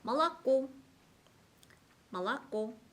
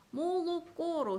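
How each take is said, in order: First: 몰랐고 as "ma-la-KO"; unstressed O as A. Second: 몰랐고로 with full "o" vowels, "mo-lo-ko"; read as spelt. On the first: Teacher models stress rule, 몰랐고 as "ma-la-KO". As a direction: reduce both first vowels of 몰랐고 to A, stress the last. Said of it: "강세가 있을 때는 오 발음이 나요". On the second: Teacher shows the spelling, 몰랐고로 with full O sounds. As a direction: draw out each written O in 몰랐고로. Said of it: "강세가 없는 오에서는 아". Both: Shown as a demonstration.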